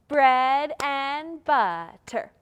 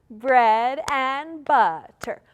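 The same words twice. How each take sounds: No difference in how they are said.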